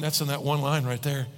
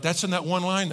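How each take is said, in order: First: Low, settled affirmation; confirming statement. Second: Surprised listener's query; questioning. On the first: Shown as a demonstration. Preacher confirming what the verse holds, matter-of-fact. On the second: Acted. Congregation member reacting to the verse, questioning. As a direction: ask it as a doubtful question. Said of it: "you're like".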